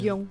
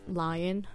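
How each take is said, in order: First: The word is said with a French pronunciation. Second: The word is said with an American pronunciation.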